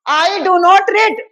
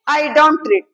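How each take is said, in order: First: Do not is said as two full words. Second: Do not is shortened into one word, don't. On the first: This form suits writing and formal answers. "देखो तीन term में बोल" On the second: This form suits everyday conversation. "I डोंट read में कम समय लगा"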